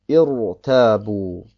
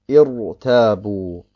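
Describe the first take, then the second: No difference in how they are said.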